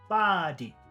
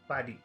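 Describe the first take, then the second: First: The first sound is long, the second short. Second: Both sounds in the word are short. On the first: "If we did long and short" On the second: "If we made both of the sounds in number one short"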